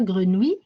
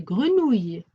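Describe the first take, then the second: First: "grenouille" as gre-nou-i, pitch rising at the end; wrong pronunciation. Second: "grenouille" as gre-nouy, closing on a y glide; correct pronunciation. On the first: Teacher showing pupils what not to say, "grenouille" mispronounced as gre-nou-i. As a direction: end "grenouille" on a bare "oui", no final y glide. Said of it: "C'est pas grenouille". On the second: Teacher correcting pupils' reading, "grenouille" correctly ending in a y glide. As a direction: say "grenouille" with falling tune and final y glide. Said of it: "c'est grenouille". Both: Shown as a demonstration.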